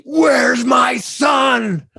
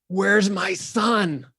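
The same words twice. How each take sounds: First: Very high, loud, slow shouted demand; yelling. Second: Slow, high, drawn-out plea; long drawn-out delivery. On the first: Actress erupts at the clerk in the retake, yelling. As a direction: explode at him, dragging out every word. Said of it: "she starts yelling at me". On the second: Actress's first slow take, drawn out and high. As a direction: stretch each word like a grieving mother. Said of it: "this was long delivery". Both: Retold or imitated.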